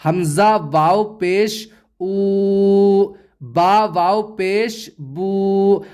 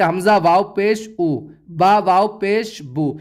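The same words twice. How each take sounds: First: Slow, with the او in "او" and the بو in "بو" held long; teacher models the long و in "بو", unhurried; correct drawn-out reading. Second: Quick, with the و in "او" and "بو" cut short; teacher demonstrates the mistake, "بو" said short; wrong clipped reading. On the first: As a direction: stretch the و sound in "او" and "بو" slowly. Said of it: "اب آپ اسے اس طرح نہیں پڑھ سکتے". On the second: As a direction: rush "او" and "بو" without stretching them. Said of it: "اس طرح نہیں پڑھ سکتے". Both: Shown as a demonstration.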